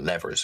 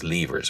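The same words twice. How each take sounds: First: It is said the American way. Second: It is said in a non-American way.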